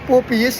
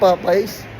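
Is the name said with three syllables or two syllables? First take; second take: three syllables; two syllables. First: It is split into poppy plus yes. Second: It is run together as pop-eyes. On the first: The speaker calls it right. "para ka naka-poppy, tapos naka-yes" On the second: The speaker calls it wrong. "gagawin mong Popeyes? Ano ko, tanga ka?"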